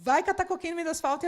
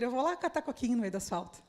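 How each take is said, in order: First: Fast, blunt brush-off with "catar" punched; rude dismissal. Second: A mild, softer cheerful "tá bom" reply; cheerful agreement. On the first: Shown as a demonstration. A leader who makes the person angry, blunt and rude. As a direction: snap it off rudely, in jest. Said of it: "a pessoa ficar braba comigo". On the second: Retold or imitated. The liderado accepting the task happily, softly cheerful. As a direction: answer happily, no offense taken. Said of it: "de uma maneira que ela diga".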